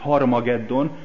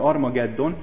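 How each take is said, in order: First: The word begins with an h sound. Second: The word begins directly with a vowel. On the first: This keeps the Greek breathing mark. The speaker calls it right. "ahogy kellene" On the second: This drops the Greek breathing mark. The speaker calls it wrong. "európai nyelvek nem így fordítják le"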